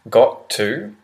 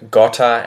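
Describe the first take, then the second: First: Both words are said fully and separately. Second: The words are run together into one reduced word. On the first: "the pronunciation changes from need to, have to, got to" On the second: "when we speed up, this is how we change the pronunciation"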